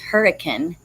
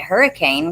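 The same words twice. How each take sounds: First: The name is pronounced the way locals say it. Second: The name is pronounced just as it is spelled. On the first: The speaker knows the town from living there. The speaker calls it right. "it's hurricane is how it's pronounced" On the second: The speaker has never been to the town. The speaker calls it wrong. "you would pronounce it hurricane because that's how it's spelled"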